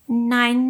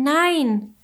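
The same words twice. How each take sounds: First: Higher ladybug cry of protest. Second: Higher cry of no, falling away. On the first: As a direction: cry out no in dismay. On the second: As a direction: call no in despair, voice dropping. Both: A narrator's reading. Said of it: "rief Willi da".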